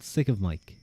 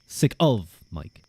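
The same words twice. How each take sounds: First: The stress falls on the word Mike. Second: The stress falls on the word of. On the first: "I feel like I put the emphasis on Mike" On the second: "What if I put it on the of?"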